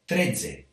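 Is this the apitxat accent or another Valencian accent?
another accent. It is said in a non-apitxat Valencian accent. "other areas might say"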